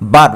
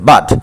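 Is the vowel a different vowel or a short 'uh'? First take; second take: different vowel; short uh. First: The vowel is not a short 'uh' sound. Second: The vowel is a short 'uh' sound. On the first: The speaker calls it wrong. "বাট বলা যাবে না" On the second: The speaker calls it right. "এটা হচ্ছে বাট"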